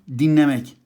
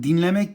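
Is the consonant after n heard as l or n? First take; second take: n; l. First: The l is assimilated into an n sound. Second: The word keeps a clear l sound.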